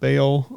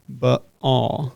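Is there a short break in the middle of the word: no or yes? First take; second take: no; yes. First: The word is said smoothly without a break. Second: The word has a short break in the middle. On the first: "I've heard it described as" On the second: "the technical way to say it ... a little pause"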